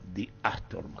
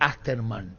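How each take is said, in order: First: The name ends with a 'math' sound. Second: The name ends with a 'man' sound. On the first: The speaker calls it right. "él quería que yo diga" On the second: The speaker calls it wrong. "Yo pronunciaba uh, más, pues yo decía"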